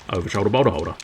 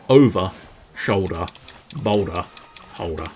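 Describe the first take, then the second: First: The phrase is said quickly. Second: The phrase is said slowly. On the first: "you can say it beautifully quickly" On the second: "I'll say it slower"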